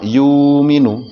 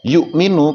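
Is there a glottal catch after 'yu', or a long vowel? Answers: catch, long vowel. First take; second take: long vowel; catch. First: The first vowel is long with no stop. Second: A glottal stop follows the first vowel.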